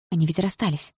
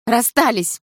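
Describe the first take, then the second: First: Said in the usual way. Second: Higher, sharper insistence; indignant exclamation. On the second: A narrator's reading. Jealous girl insisting to herself they split, indignant. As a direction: throw it out in protest.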